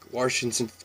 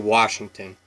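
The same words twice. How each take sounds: First: A slight R sound follows the first vowel. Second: No R sound follows the first vowel. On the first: "The Old Timers would throw a little R in there" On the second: "most people say Washington"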